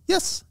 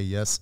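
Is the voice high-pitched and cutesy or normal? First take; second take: high-pitched; normal. First: It is said in a high, cutesy voice. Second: It is said in a normal speaking voice.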